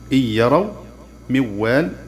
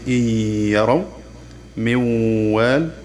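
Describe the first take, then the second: First: The n merges into a doubled consonant without nasal hum. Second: The merged consonant carries a nasal hum held two beats. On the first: "ندغم النون الساكنة والتنوين في الحرف المتحرك بعدها مع تشديده" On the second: "نصدر صوت الغنة بمقدار حركتين فيصير نطقها الصحيح"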